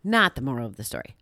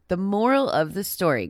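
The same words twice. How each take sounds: First: Said in the usual way. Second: Moral said higher and louder, falling; stress on moral. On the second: Shown as a demonstration. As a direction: punch the word moral.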